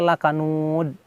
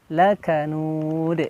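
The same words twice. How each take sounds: First: The final d stops flat without any bounce. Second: The final d is released with a bounce. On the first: The speaker calls it wrong. "tidak ada pantulan sama sekali, itu e, tidak boleh" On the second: The speaker calls it right. "pantulan dalnya ini kena ya"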